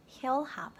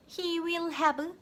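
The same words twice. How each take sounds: First: HE'LL HAVE linked in two beats; natural contraction. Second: HE WILL HAVE word by word, high and slow; overly separate words. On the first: Teacher modelling for learners, contracted he'll have. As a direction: run HE WILL together as HE'LL. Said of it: "못 알아들을 수 있거든요". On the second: Teacher warning learners, stilted full he will have. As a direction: spell out HE, WILL, HAVE stiffly. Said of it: "하시면 원어민과 대화하실 때 문제가". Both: Shown as a demonstration.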